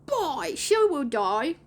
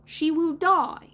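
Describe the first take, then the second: First: Put-on high, drawn-out boy voice, rising on DIE; put-on lost-boy admission, stretched out; Slightly. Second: High, loud, slow dire warning; drawn-out boyish doom, falling on DIE; Toodles. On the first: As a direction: admit it slowly with an upward swing. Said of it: "Slightly admitted". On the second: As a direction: announce the awful outcome like a dramatic child. Toodles foretelling Wendy's death. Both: A narrator's reading.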